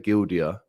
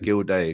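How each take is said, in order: First: The name ends with a 'dee-uh' sound. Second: The name ends with a 'day' sound. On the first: The speaker calls it wrong. "because people say Gildia" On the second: The speaker calls it right. "it's pronounced the same as O'Shea"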